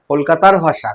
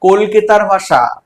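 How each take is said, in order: First: Said in the usual way. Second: কলকাতার ভাষা said slowly, the word কলকাতার leaned on hard; emphatic answer. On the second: Shown as a demonstration. Teacher answering her own question to the class, slow and emphatic. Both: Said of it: "তিনি বলছেন কোথাকার ভাষা?".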